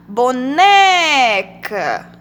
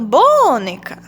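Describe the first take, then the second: First: Boneca with a long, loud "ne"; stress on NE in boneca. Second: Boneca said as BÔ-neca, first syllable long and loud; wrong stress on BO. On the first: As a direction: draw out the middle syllable of boneca. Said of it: "Vamos pronunciar boneca". (boneca com o "né" forte e bem esticado) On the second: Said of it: "Ou então". (boneca com o "bo" forte e esticado) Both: Shown as a demonstration.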